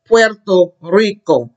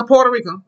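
First: "Puerto Rico" slowly as PWER-to RREE-ko; Spanish pronunciation. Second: "Puerto Rico" quickly as POR-tuh REE-ko; anglicised pronunciation. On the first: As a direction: model "Puerto Rico" with a clear W glide. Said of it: "We know it's pronounced what?". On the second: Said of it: "we can't say no Puerto Rico". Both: Shown as a demonstration.

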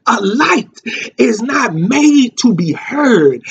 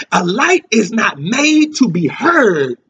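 First: A light, then a pause, then is not made to be heard, slow; pause after light. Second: A light is not made to be heard, each word set down slowly; slow emphatic line. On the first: Preacher repeating his key line to the church, with a pause after light. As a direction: hold a beat after light, then press the rest slowly. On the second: Preacher stressing a point to his congregation, slow and deliberate. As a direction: lay the line down deliberately for the church. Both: Shown as a demonstration. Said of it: "I wanna say that again".

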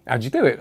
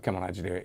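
First: Lightly imitating an amused customer asking; a playful, chuckling question; laughing. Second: Quiet, softer, menacing demand; a hint of threat, pressing for the secret; threatening. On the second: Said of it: "there was like an element of threat".

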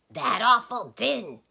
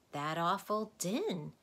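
First: Loud, high, slow emphatic answer. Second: Put-on slow, slightly higher boy's answer; reluctant admission. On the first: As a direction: belt out the answer. Tock answers the doctor's quiz. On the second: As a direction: admit it without force. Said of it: "admitted Milo". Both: A narrator's reading.

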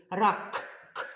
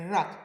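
First: «Рак» with the final K popped and repeated; last sound emphasized. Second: «рак» with a long rolled R; first sound emphasized. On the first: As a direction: detach the closing K of «Рак». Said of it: "І ще який ми чуємо звук?". («Рак» із чітким окремим «к» у кінці) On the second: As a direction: roll out the opening R of «рак». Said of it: "Який перший звук ми чуємо". («рак» із розкотистим першим «р») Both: Shown as a demonstration.

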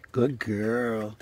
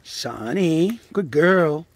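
First: Said in the usual way. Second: Loud praise. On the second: Real, not acted. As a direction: cheer the dog on. Praising the dog.

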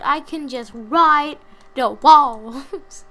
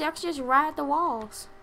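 First: Very slow, loud, smug drawl. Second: Said in the usual way. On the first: Pretend. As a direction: stretch every word, showing off. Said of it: "Like I've said".

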